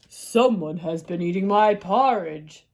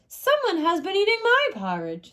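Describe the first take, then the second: First: It is said in a big, deep voice. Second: It is said in a medium voice.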